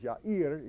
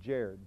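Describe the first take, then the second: First: The name begins with a Y sound. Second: The name begins with a J sound. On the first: This is the original Hebrew form of the name. "My best friend in college's name was Yair" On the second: This is the English form of the name. "except in English they pronounced it Jair"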